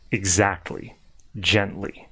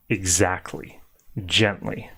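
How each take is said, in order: Both takes have the same delivery.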